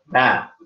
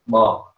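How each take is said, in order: First: The vowel is an open, unrounded a. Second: The vowel is a rounded, heavy o. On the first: The speaker calls it right. "huruf ba" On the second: The speaker calls it wrong. "Kalau bo, nah itu udah jadi istiara"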